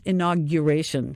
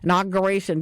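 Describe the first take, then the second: First: The middle syllable is said with a 'gyur' sound. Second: The middle syllable is said without the 'y' sound. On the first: The speaker calls it right. "the word is pronounced inauguration" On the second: The speaker calls it wrong.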